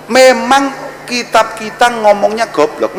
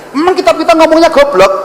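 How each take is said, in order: First: Slow emphatic take. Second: Higher take. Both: Shown as a demonstration. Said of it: "repeated slower".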